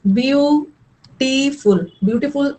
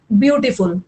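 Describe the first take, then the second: First: beautiful very slow, split as byu-tee-ful; syllable by syllable. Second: Said in the usual way. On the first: Shown as a demonstration. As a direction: stretch out each syllable of beautiful, pausing between. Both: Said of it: "दो, तीन syllable का बना है".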